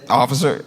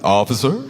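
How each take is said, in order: First: It is said plainly and neutrally. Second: It is said warmly, like welcoming someone home.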